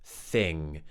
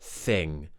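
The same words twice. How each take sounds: First: The first sound is voiceless, with only air. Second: The first sound is voiceless, with only air.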